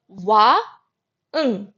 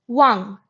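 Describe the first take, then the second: First: "wa, ng" split into two parts with a pause between; broken into sounds. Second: "wang" said in one smooth syllable, ending on ng; blended whole word. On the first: Teacher breaking the word for king into its sounds. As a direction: spell "wa, ng" out sound by sound. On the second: Teacher putting the sounds back together into king. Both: Shown as a demonstration. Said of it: "So it is wa, ng, wang".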